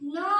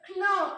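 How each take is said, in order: First: The word begins with an n sound. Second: The word begins with a k sound. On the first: The speaker calls it right. "நோ நோ தான் நம்ம படிக்கணும்" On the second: The speaker calls it wrong. "அப்படி படிக்கக்கூடாது"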